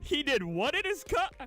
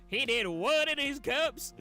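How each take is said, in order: First: It is said in the speaker's normal voice. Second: It is said in a put-on Southern accent.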